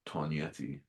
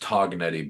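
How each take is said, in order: First: The G sound is silent. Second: The G sound is clearly pronounced. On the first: The speaker calls it right. "the authentic way" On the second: The speaker calls it wrong. "said like an American"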